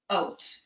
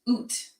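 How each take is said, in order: First: The vowel sounds like 'oat', an oh sound. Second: The vowel sounds like 'oot', an oo sound. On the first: This is how people in Eastern Canada say it. "in Eastern Canada, we say oat" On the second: This is how people in Upper Canada say it. "Upper Canada, they say oo"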